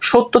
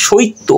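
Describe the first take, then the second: First: Said in the usual way. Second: সৈত্য as shoitto, i before tt; inserted short i. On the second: Shown as a demonstration. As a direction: glide o-i in সৈত্য. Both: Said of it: "মাঝখানে কিন্তু রস্বইকার চলে এসেছে".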